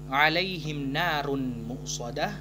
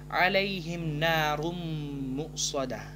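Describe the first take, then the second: First: The n is pronounced clearly before the m. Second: The n merges into a long nasal m. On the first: The speaker calls it wrong. "bukan kita baca" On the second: The speaker calls it right. "langsung memasukkan ke huruf mim dengan dengung dua harakat"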